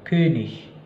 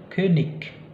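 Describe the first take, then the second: First: The ending is a soft ich sound. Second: The ending is a hard g or k sound. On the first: The speaker calls it right. "tapi König" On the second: The speaker calls it wrong. "bukan lagi König"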